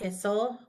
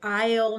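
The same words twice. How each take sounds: First: The vowel is short and does not say its name. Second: The vowel is long and says its name. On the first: The speaker calls it wrong. "not isle" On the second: The speaker calls it right. "we say isle"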